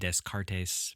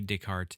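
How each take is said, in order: First: The name has a local, anglicized pronunciation. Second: The name has a French pronunciation. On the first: The speaker calls it wrong. "people from my area would probably pronounce it Descartes, but uh, you know that's incorrect" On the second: The speaker calls it right. "He was French"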